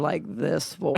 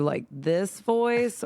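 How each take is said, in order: First: Slow alternative character voice; second demo voice. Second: Slow, drawn-out first voice option; demo character voice. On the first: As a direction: offer another voice, drawn out slowly. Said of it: "or, like, this voice". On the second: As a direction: try out a voice, stretching it slowly. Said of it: "do you want me to do, like, this voice". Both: Shown as a demonstration.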